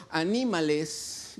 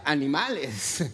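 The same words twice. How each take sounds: First: "anímales" with the stress on "ní", a slow encouraging word; slow "anímales", stressed a-NÍ-ma-les; intended reading. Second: "animales" with the stress on "ma", the plain word for animals; "animales" stressed on the next-to-last syllable, the way it reads without the accent; misread as animals. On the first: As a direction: say "anímales", leaning on "ní", as in "cheer them up". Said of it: "no le puso antes acento". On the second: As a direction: read it as "animales", a-ni-MA-les, like the word for beasts. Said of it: "cuando los demás leíamos, decía".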